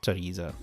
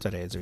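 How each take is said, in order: First: The name is pronounced with English sounds. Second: The name is pronounced with Italian sounds. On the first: "in England" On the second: "in Italian"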